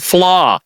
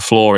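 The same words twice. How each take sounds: First: The word sounds clearly like 'flaw'. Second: The word sounds like 'floor'. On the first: The speaker calls it right. "There we go" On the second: The speaker calls it wrong. "Your your South London accent makes it sound like floor"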